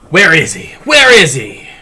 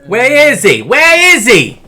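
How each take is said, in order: First: It has only a light Boston accent. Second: It has a strong Boston accent. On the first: The speaker calls it wrong. "Need more of a Boston accent" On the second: The speaker calls it right. "That that sounds more accurate"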